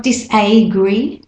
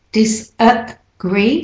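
First: Disagree said dis-AY-gree; wrong clear A. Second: Disagree slowly split as dis-uh-GREE; schwa A. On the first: Teacher showing what not to say, disagree with AY. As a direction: put a full AY inside disagree. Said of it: "So it's not disagree". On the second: Teacher correcting the vowel, disagree slow with schwa. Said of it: "that A in there is". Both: Shown as a demonstration.

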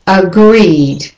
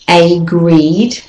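First: Agreed with a schwa start, uh-GREED; agreed begun with a weak uh; right way. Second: Agreed with a full AY, AY-GREED; agreed begun with a long AY; wrong way. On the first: Teacher models agreed with a schwa. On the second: Teacher shows how not to say agreed. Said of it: "the next word is not agreed". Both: Shown as a demonstration.

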